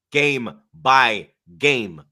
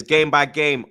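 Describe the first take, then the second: First: Drawn-out, very slow catchphrase. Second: Said in the usual way. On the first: Shown as a demonstration. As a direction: stretch each word out.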